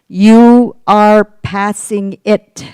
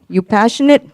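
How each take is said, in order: First: Each word is pronounced slowly and distinctly. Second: The words are blurred together quickly. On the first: The intended meaning becomes clear. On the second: It sounds like a different word.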